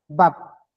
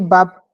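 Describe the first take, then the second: First: The word is said on a low tone. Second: The word is said on a level mid tone. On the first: It means wings. "avec le ton bas" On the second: It means meat. "sans monter, sans descendre"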